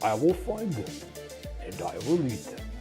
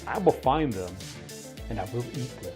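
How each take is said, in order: First: It is said in a put-on impersonation voice. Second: It is read in the speaker's normal voice.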